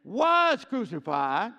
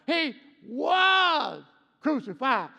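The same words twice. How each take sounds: First: Was held slow and loud; stress on was. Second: Was hit loud and slow; stress on was. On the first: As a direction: draw out was for past tense. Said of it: "Okay, past tense". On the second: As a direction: lean on was, drawn out. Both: Shown as a demonstration.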